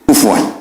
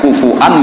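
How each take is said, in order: First: It has a w sound instead of a glottal stop. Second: It has a glottal stop in the middle.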